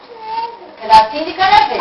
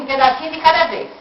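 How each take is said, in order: First: "Um pedacinho de cada vez" said slow, higher, stress on "cada"; slow emphatic. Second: Said in the usual way. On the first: Shown as a demonstration. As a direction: spell out "pedacinho de cada vez" slowly, leaning on "cada".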